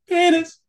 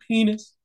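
First: The word is said loudest of all. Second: The word is said fairly quietly. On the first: The player tries to win. "then you're like" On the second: The game begins cautiously. "you start off like"

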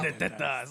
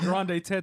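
First: It is said in a growly old-uncle voice. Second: It is said in a plain, flat voice.

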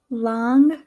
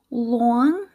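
First: It is spoken in a Midwestern accent. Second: It is spoken in an East Coast accent. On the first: "And now in my Midwestern accent" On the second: "here are some examples in an East Coast accent"

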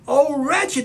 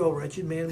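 First: It is said as an anguished cry. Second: It is read flatly, without emotion.

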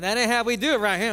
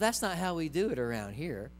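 First: It is said harshly, with attitude. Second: It is said gently and lovingly.

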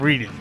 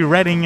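First: The first syllable sounds like reed. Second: The first syllable sounds like red. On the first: The speaker calls it wrong. "instead of Reading" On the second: The speaker calls it right. "it was supposed to be Reading"

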